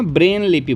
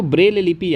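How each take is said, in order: First: ब्रेन लिपि said wrongly with an n, as in ब्रेन meaning brain; common mispronunciation. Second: ब्रेल लिपि said correctly with a clear l in ब्रेल; teacher firmly giving the right form ब्रेल लिपि, with l not n; correct pronunciation. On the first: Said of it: "बहुत सारे लोग इसको ना ब्रेन लिपि बोलते हैं". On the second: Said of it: "तो ब्रेल लिपि याद रखेंगे". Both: Shown as a demonstration.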